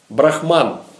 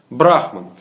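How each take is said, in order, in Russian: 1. Ударение на последнем слоге. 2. Ударение на первом слоге. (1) "ударение на последнем слоге" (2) "Ударение на первом слоге"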